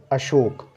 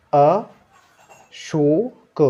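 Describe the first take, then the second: First: Said in the usual way. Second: Ashok stretched very slowly, each sound held; drawn out. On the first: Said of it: "normal take after slow demo". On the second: Shown as a demonstration. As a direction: draw out Ashok very slowly, rising. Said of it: "slow drawn-out demo before blend". (बहुत खींचकर धीरे-धीरे)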